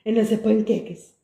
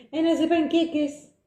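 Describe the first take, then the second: First: Said in the usual way. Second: Put-on higher, slow sing-song kid talk. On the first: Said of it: "Por que nós falamos assim com os miúdos?". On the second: Shown as a demonstration. Host mocking how adults talk to kids, higher sing-song. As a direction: coo it like talking to small children. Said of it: "Por que nós falamos assim com os miúdos? Parecemos parvos".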